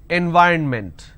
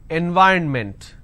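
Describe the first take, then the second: Both takes have the same delivery.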